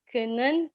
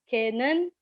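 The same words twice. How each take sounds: The two takes are said the same way.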